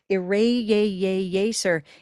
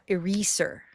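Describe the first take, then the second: First: The stress is on the second syllable. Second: The stress is on the first syllable. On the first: The speaker calls it right. "it's a great day word" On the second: The speaker calls it wrong. "That would be green tea eraser"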